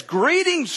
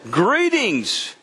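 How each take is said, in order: First: High, sing-song "Greetings"; sweet angel greeting. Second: "Greetings" said solemnly in a changed voice; serious angel greeting. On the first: Angel greets Mary sweetly, high sing-song. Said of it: "when someone says nice things to you". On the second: Angel greets Mary, grave and solemn. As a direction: make "Greetings" grave and weighty. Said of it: "I mean, seriously". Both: Retold or imitated.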